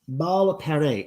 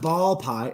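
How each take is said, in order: First: The last syllable sounds like 'pair'. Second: The last syllable sounds like 'pie'. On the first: The speaker calls it right. "It's ball pare" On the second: The speaker calls it wrong. "It's not ball pie"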